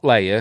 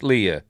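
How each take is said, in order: First: The name sounds like the word 'layer'. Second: The name does not sound like 'layer'. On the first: The speaker calls it wrong. "Not Leia. ... It's not L A Y E R" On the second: The speaker calls it right. "It's Leia"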